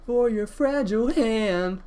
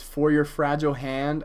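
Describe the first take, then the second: First: Sung with voice crack. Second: Said in the usual way. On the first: Retold or imitated. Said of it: "he cracks his voice when he says". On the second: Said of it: "I'm not gonna try to do it".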